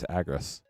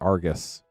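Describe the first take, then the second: First: The name begins with an 'ag' sound. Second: The name begins with an 'ar' sound. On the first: The speaker calls it right. "but no, it's Agris" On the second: The speaker calls it wrong. "I could swear it was Argus"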